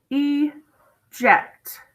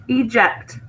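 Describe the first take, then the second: First: "Eject" as long EE, long pause, JECT; split into syllables. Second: Said in the usual way. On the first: Shown as a demonstration. Teacher showing a two-syllable word, "Eject" split as ee...ject. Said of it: "this is a two-syllable word". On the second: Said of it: "We haven't learned that one yet".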